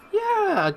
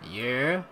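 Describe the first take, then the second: First: The voice sounds like a stereotypical old woman. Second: The voice sounds manly, not like a woman. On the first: "that's like the default uh, old, old woman voice" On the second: "No, that's not womanly"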